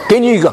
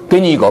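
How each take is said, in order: First: It is spoken in a Shandong dialect. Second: It is spoken in a Sichuan dialect. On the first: "我用山东话" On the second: "要不要讲四川话？"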